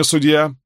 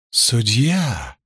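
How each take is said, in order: First: Said in the usual way. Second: Deliberately smooth, ingratiating "Судья!"; insinuating purr. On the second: A narrator's reading. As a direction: coax "Судья!" with mock sweetness. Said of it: "с нарочитой вкрадчивостью молвил проповедник".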